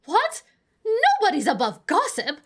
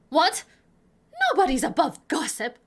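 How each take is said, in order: First: Very high, loud squawk on "What?"; shriller, quicker busybody retort; indignant old lady, heightened. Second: Loud, high "What?", then a quick retort; old busybody snapping back loudly; indignant old lady. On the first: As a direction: fire it back fast and incredulous. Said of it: "that was the right inflection, right?". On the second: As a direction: brush it off as a stated fact. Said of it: "that was the right inflection". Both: Acted.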